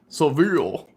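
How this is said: The name is said the American English way. "That's how Americans say that in city"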